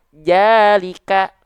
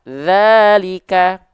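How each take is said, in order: First: The word begins with a j sound. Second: The word begins with a soft th sound. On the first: The speaker calls it wrong. "Banyak orang melafalkannya jalika" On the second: The speaker calls it right. "zalika itu pakai zal"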